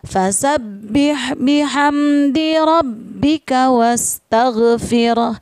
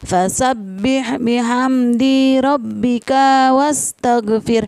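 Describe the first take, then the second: First: The final vowels of di and ka are short. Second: The final vowels of di and ka are long. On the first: The speaker calls it right. "harus dibaca pendek" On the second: The speaker calls it wrong. "Biasanya anak-anak membaca seperti ini. ... Di dan ka tidak boleh dibaca panjang"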